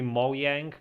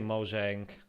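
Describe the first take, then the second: First: The j is sounded like a y. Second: The j is sounded like English j. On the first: "officially it's supposed to be Mojang, because I'm pretty sure that's how uh, it's pronounced in Swedish" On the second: "I always say Mojang"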